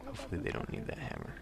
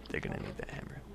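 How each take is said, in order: First: High hopeful voice. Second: Low whispered doom. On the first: Hopeful aside, then grim answer. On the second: Grim answer to own hope. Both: Pretend.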